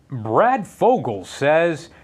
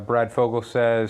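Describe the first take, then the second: First: It is read in a put-on newscaster voice. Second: It is read in a normal conversational voice.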